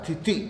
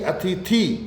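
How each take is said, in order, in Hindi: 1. अंतिम स्वर ह्रस्व है। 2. अंतिम स्वर दीर्घ है। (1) "छोटी ई आएगी अंत में" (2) "मुख्य अतिथि ई बोलते हैं"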